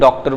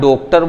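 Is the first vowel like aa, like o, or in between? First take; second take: between; o. First: The first vowel is between aa and o. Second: The first vowel is a closed o sound. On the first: The speaker calls it right. "बीच की स्थिति होती है, डॉक्टर बोला जाता है।" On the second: The speaker calls it wrong. "ना डॉक्टर बोलते हैं"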